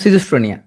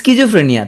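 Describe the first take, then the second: First: The word begins with a plain 's' sound. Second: The word begins with an 'sk' sound.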